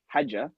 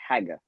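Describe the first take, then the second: First: It has the standard Arabic J sound. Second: It has the Egyptian Cairo G sound.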